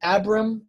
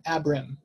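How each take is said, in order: First: Abram set apart, pitched a little up; slight sound contrast. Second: Abram said slowly, settling down at the end; slow, careful Abram with a short first A; slight sound contrast. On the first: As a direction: say Abram carefully with a short first A. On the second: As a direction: say Abram slowly as the compared form. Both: Shown as a demonstration. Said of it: "changes the sound slightly".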